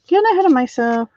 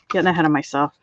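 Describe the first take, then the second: First: Higher, fast singsong self-chiding; singsong repeat. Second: Said in the usual way. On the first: Real, not acted. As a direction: sing it back to yourself, quicker.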